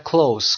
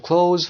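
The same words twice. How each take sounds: First: "close" ending in a hissed S; close with S sound. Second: "close" ending in a voiced Z; close with Z sound. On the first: Teacher offering second pronunciation, "close" ending in S. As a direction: say "close" like the adjective, kloass. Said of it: "close که با صدای سه". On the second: Teacher offering first pronunciation, "close" ending in Z. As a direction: say "close" like the verb, kloze. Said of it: "close ما دو تا پرونانسیشن داریم". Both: Shown as a demonstration.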